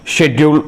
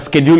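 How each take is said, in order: First: It is said with a British pronunciation. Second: It is said with an American pronunciation. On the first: "is uh, U K" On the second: "is an American pronunciation"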